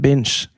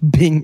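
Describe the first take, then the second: First: The word ends with a soft 'j' sound. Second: The word ends on a plain 'ng' sound. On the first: The speaker calls it right. "Det heter binge" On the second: The speaker calls it wrong. "Det heter det ikke bing?"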